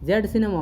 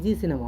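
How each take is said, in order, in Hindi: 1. यह अक्षर 'zed' बोला जाता है। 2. यह अक्षर 'zee' बोला जाता है।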